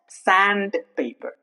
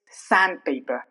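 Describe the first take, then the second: First: The D sound is pronounced. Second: The D sound is silent. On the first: The speaker calls it wrong. "It's not sandpaper" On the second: The speaker calls it right. "It's sandpaper"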